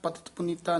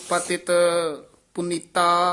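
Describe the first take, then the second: First: The words run together without any pause. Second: There is a short pause between the words. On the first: The speaker calls it wrong. "ਪਤਿਤ ਪੁਨੀਤਾ ਨਹੀਂ ਕਹਿ ਦੇਣਾ" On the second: The speaker calls it right. "ਸਭ ਪਤਿਤ ਇੱਥੇ ਥੋੜਾ ਜਿਹਾ ਠਹਿਰਾ ਦੇ ਦੇਣਾ"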